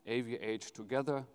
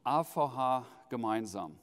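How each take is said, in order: First: Letters A V H spoken the English way, ay vee aitch, then "together"; motto in English. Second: Letters A V H spoken the German way, "gemeinsam" in German; motto in German. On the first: Host translating the motto for guests, English pronunciation. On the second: Host giving the motto in German to guests, German pronunciation. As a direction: say "A V H gemeinsam" with German letter names, ah fow hah. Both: Shown as a demonstration. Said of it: "This is the motto of our meeting".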